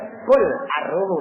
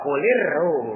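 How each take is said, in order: First: Qul ends in a bare l before arruhu. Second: Qul links into the next word with an i. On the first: The speaker calls it wrong. "Tapi nggak enak bacanya" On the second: The speaker calls it right. "Makanya di kasroh"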